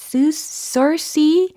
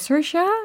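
First: The name is said like 'Cersei'. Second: The name is said like 'Shersha'. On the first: The speaker calls it wrong. "철자를 보면 왠지 Cersei, Ronan 뭐 이런 식으로 발음을 해야 될 것 같은 생각이 들었어요" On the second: The speaker calls it right. "이렇게 발음을 한다고 알려주더라고요"

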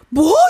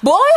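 First: It is said in a surprised tone. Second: It is said in an angry tone.

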